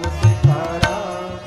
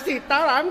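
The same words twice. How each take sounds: First: It is said with loving devotion. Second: It is said angrily, with harsh force.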